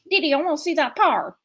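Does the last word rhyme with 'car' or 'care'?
car. The last word rhymes with 'car'. This is how it is said in the local region. "But here it's"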